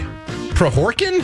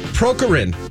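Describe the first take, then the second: First: The first K sound is left out. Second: The second K sound is left out. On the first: The speaker calls it right. "The first K was silent" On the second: The speaker calls it wrong. "I feel like that second K might be silent"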